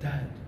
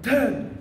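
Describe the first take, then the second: First: The voice sounds worried and hesitant. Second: The voice sounds excited and eager. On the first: The dream is troubling. "There is also a concern" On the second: The dream is good news. "He's excited"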